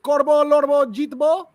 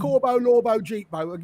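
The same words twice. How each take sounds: First: "Corbo, Lorbo, Jeetbo" high and loud with tapped r's, as in Bengali; attempted correct pronunciation. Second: "Corbo, Lorbo, Jeetbo" in a plain English accent. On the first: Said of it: "Am I saying it correct?". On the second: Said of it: "can't say it in an English accent". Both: Shown as a demonstration.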